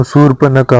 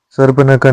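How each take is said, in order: First: शूर्पनखा opening with oo before r; correct oo vowel. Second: सर्पनखा opening sarp, short a; wrong sarp- opening. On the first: Teacher giving learners the correction, शूर्पनखा opening soorp. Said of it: "सर्पनखा नहीं होती". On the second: Teacher showing learners the mistake, सर्पनखा opening sarp. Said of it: "शूर्पनखा होती है". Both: Shown as a demonstration.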